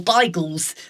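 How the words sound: The word is said with a Polish pronunciation. It is how people from Poland said it. "as you would say if you hailed from Poland"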